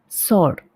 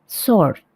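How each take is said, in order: Both takes have the same delivery.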